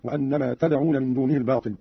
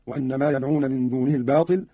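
First: "تدعون" begun with a t, tad'una; ta of address. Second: Said in the usual way. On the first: Shown as a demonstration. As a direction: clear t opening "تدعون" in place of y. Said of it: "قرأ قالون بالتاء على الخطاب هكذا". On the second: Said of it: "قرأ قالون بالتاء".

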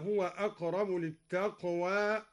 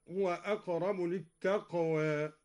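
First: "للتقوى" as lit-taqwaa, vowel not tilted; full open alif. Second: Tilt the last vowel of "للتقوى" slightly toward e; "للتقوى" as lit-taqwae, between aa and e; taqlil. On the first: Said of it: "قلل التقوى". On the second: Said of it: "قلل التقوى هكذا". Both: Shown as a demonstration.

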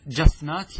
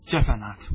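First: جفنات as "jaf-naat", no vowel after f; forbidden vowelless form. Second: جفنات as "ja-fa-naat", a after the f; required echoed vowel. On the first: Teacher tests students on a forbidden plural, جفنات as "jaf-naat". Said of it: "لا، لا يجوز". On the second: Teacher gives students the required plural, جفنات as "ja-fa-naat". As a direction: say جفنات with a fatha on the fa. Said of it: "بل يجب الإتباع". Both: Shown as a demonstration.

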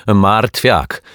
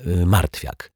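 First: Loud, higher, emphatic name; undeterred. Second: Said in the usual way. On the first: A narrator's reading. Neighbour accepting the correction mid-complaint, undeterred. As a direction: take the corrected name and push on. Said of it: "kontynuowała niezrażona pani Majewska". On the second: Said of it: "poprawił ją detektyw Pozytywka".

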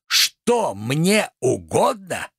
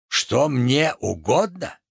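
First: Very slow, swooping theatrical question; outraged echo. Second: Slow, measured echo of the question; incredulous echo. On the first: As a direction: stretch out every word in disbelief. Tragedian repeats question, more outraged. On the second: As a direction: repeat it back with restrained theatrical disbelief. Tragedian echoes question, first take. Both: Acted.

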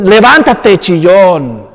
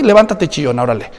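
First: Stern rebuke. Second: Dismissive rebuke. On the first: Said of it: "Le dice en el versículo diez". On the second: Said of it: "¿quieres que te diga qué mal hiciste?". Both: Retold or imitated.

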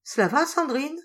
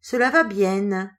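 First: High, bright cheerful check-in. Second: Slow, louder mock of the boss's accent; imitating the boss. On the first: The boss asking Sandrine, cheerful. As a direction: lift her spirits with a light question. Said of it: "d'un air gai". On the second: Sandrine answering the boss, mock imitation. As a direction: tease him by copying his voice. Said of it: "en imitant l'accent du patron". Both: A narrator's reading.

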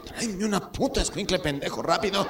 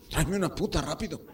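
First: High-pitched, exasperated grandpa order; abuelo impaciente. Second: Higher, mildly urgent grandpa request; abuelo con urgencia. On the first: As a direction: repeat it sharply as an impatient grandpa. Grandfather repeats order, now insulting grandson. (orden aguda y exasperada de abuelo) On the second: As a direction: ask urgently but without raising the volume. (petición urgente de abuelo, sin gritar) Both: Acted.

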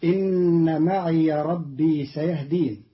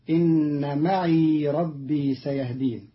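First: معي said as ma'iya with an open ya; standard reading. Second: معي said as ma'i with a still ya; Qalun's reading. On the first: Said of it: "قرأ قالون كلمة معي". (معيَ بفتح الياء) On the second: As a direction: end معي on a long i. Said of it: "بإسكان الياء". (معيْ بإسكان الياء) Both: Shown as a demonstration.

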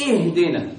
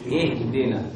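First: اهدنا opened with a hard-pressed glottal hamza; over-pressed hamza. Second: اهدنا begun with a light, unforced hamza on a clear kasra; gentle hamza. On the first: Teacher warning against the error, over-pressed hamza. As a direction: squeeze the first sound of اهدنا. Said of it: "ضغط شديد". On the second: Teacher modelling it for students, gentle hamza. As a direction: ease softly into the i of اهدنا. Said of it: "لكن بلطف وبرفق ودون إيه؟". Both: Shown as a demonstration.

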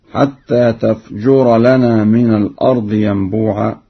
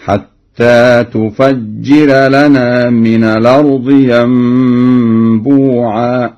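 First: Said in the usual way. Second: تفجر said tufajjira, with damma on ta, fatha on fa, and a doubled kasra jim; tufajjira reading. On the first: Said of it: "قرأ ورش الفعل تفجر". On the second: Shown as a demonstration. Teacher demonstrates Warsh reading, slow emphatic chant. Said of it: "بضم التاء وفتح الفاء وكسر الجيم مشددة".

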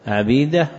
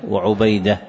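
First: First عبيدة as ʕabīda, a then long ee; fatha on the ayn. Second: وعبيدة as wa-ʕubayda, u after the ayn; damma on the ayn. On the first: Teacher listing forms of the given name, عبيدة with fatha, "Abeeda". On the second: Teacher listing forms of the given name, وعبيدة with damma, "wa Ubayda". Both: Shown as a demonstration. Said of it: "وأما الاسم فإنه يأتي".

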